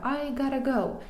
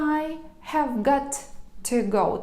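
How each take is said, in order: First: Have got to is merged into gotta. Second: Have got to is said as separate words.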